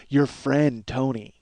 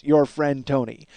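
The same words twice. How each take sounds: First: Slow pointed "your friend Tony" with weight on "your"; slow knowing nudge, stressing "your"; pointed hint. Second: Slow "Your friend Tony" stressing "Your"; drawn-out knowing nudge on "Your"; pointed hint. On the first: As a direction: lean on "your" to drop a hint. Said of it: "So Karen goes". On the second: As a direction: repeat the hint, leaning on "Your". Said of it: "That's what she says". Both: Retold or imitated.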